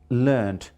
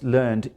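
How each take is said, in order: First: It is said as the irregular British form. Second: It is said as the regular American -ed form. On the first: "But the Britishers say learned" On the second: "it becomes regular in American English. That is, that is learned, ed"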